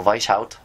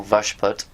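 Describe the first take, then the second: First: "Weishaupt" with an "eye" vowel, then "howt"; alternative name pronunciation. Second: "Vashput" with a simple "vash" and "put" ending; alternative name pronunciation. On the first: Offering another way to say the founder's name, "Weishaupt" as VYSH-howt. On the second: Offering one way to say the founder's name, "Vashput" as VASH-put. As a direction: say "Vashput" as two short syllables, VASH-put. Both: Shown as a demonstration. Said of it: "however you want to say his name".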